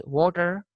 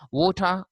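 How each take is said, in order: First: "water" said WAW-ter, final R sounded; American pronunciation. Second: First "water" said WAW-tah, without R; British pronunciation. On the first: Teacher contrasting American with British, R-ful "water". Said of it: "R sound is uttered in the American". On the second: Teacher contrasting British with American, R-less "water". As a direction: end "water" on a schwa, R dropped. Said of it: "this word ends with a schwa". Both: Shown as a demonstration.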